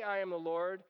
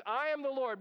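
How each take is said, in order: First: Said in the usual way. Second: Higher and louder, weight on "am" in "I am the Lord"; booming divine announcement; emphatic declaration. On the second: Shown as a demonstration. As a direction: proclaim "I am the Lord" with the stress landing on "am". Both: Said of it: "but he doesn't just say".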